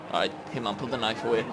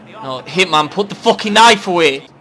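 First: Low, soft aside to the character; quiet instruction. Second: Loud, raised insistence; exasperated order. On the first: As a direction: tell him softly, under control. Telling character, first take. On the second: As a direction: repeat the order louder, losing patience. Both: Pretend.

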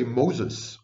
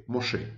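First: Anglicized Moses, ending in a sounded S; English pronunciation. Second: Hebrew-style Moshe, open ending with no final S; Hebrew pronunciation. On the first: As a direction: say Moses as MOH-ziz. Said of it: "And we say Moses". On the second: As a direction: say Moshe as moh-SHEH. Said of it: "when in Hebrew we say Moshe". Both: Shown as a demonstration.

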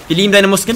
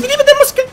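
First: Said in the usual way. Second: Very high squeaky gushing voice; squeaky fan voice. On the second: Acted. Gamer gushing over a teammate's muscles in a squeaky voice.

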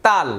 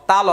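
First: তাল as one syllable, ending on l; half-sounded final letter. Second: তাল said in two syllables as ta-lo; open final vowel. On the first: Teacher explaining the halved last letter, final l closed. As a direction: close তাল on the l without a vowel. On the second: Teacher spelling a Bangla example, final vowel sounded. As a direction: let তাল end on an open o. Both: Shown as a demonstration. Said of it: "শেষের অক্ষরের অর্ধেক উচ্চারণ হচ্ছে".

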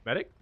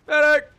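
First: Said in the usual way. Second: Screamed high and loud; man down shout. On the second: Real, not acted. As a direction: yell Medic across the field. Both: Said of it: "is there a medic".

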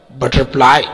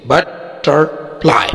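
First: Said in the usual way. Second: "butterfly" slowly in three parts, ब, टर, fly; split into syllables. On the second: Shown as a demonstration. ("Butterfly" کو تین حصوں میں آہستہ) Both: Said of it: "तीन syllable है".

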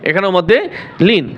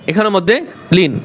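The two takes are said the same way.

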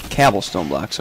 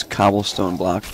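First: "cobblestone" corrected to "cabblestone"; "cobblestone" with the A of cab; joke mispronunciation. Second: Said in the usual way. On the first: Shown as a demonstration. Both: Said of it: "That's how you say it".

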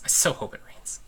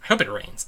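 First: Unvoiced whispered wish; real whispered hope. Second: Said in the usual way. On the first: Real, not acted. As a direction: breathe it as a secret. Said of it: "whispered repeat". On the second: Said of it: "repeated wish".

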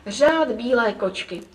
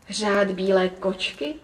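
First: Said in the usual way. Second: Slow, wondering question rising at the end; surprised. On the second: A narrator's reading. Grandmother echoing the girl's answer, surprised. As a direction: echo it slowly in wonder. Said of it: "podivila se babička".

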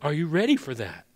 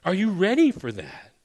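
First: Said in the usual way. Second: Pressing repeat. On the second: Shown as a demonstration. Pastor repeats question, raised.

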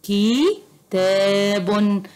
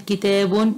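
First: كتاب stretched slowly as kitabun, with the long vowel held and the final un sounded; slow drawn-out reading. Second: Said in the usual way. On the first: Shown as a demonstration. Teacher reading the assembled word to pupils, drawn out slowly as kitabun. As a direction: draw out كتاب syllable by syllable, kitabun. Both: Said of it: "باء وكاف وألف وتاء".

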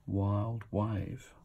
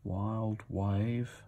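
The two takes are said the same way.

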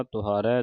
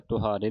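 First: ਤੁਹਾਰੈ ending in open ai. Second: ਤੁਹਾਰੇ ending in long e; closed e ending. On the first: Teacher modelling it for students, ਤੁਹਾਰੈ with final ai. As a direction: open the last vowel of ਤੁਹਾਰੈ to ai. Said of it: "ਤੁਹਾਰੈ ਦਲਾਵਾਂ ਦੇ ਨਾਲ". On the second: Teacher showing students the mistake, ਤੁਹਾਰੇ with final e. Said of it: "ਤੁਹਾਰੇ ਨਹੀਂ ਪੜਨਾ". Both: Shown as a demonstration.

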